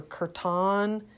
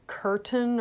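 First: Kirtan with a full "ahn" ending; alternative pronunciation. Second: Kirtan with a weak, reduced last syllable; unsure pronunciation. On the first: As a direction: say kirtan like "kur-TAHN". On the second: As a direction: say kirtan like "KUR-tun". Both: Shown as a demonstration. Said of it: "I don't know how to pronounce it".

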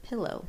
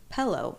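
First: Said in the usual way. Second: "Pillow" with an eh in the first syllable; mispronounced pillow. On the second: Retold or imitated. Listing another of his errors, "Pillow" as "pellow". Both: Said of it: "instead of".

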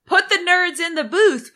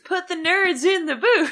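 First: High, loud playful chant; chanted, call it out like a slogan; excited chant. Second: Goofy put-on voice. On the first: Pretend. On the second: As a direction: repeat it in a silly voice. Repeats slogan in new voice.

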